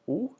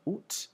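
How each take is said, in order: First: It ends on the vowel, with no T. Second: It ends with an audible T sound. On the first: This is the everyday pronunciation most people use. "you sort of sound like an owl a little bit when you're saying it" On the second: This is a formal, fancy or older-generation pronunciation. "the pronunciation oot with the final T"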